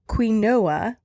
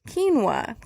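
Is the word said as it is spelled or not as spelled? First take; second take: as spelled; not as spelled. First: It is said just the way it is spelled. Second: It is not said the way it is spelled.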